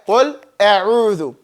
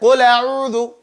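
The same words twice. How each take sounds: First: The glottal stop is kept separate after qul. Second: The glottal stop is dropped, linking qul smoothly.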